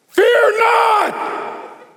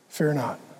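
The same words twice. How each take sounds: First: It is said as a stern command. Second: It is said as a gentle invitation.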